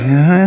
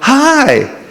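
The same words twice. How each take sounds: First: The greeting sounds unsure and hesitant. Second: The greeting sounds warm and sweet.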